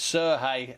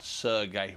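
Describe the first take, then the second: First: The name is said in its Ukrainian form. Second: The name is said in a non-Ukrainian form. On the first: The speaker calls it right. "it's Sergey" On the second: The speaker calls it wrong. "and not Sergey"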